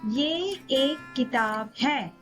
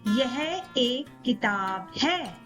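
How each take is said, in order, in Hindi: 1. पहला शब्द अपने छोटे रूप में बोला गया है। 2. पहला शब्द अपने पूरे रूप में बोला गया है। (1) "In everyday spoken Hindi, we say" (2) "In formal or written Hindi, we say"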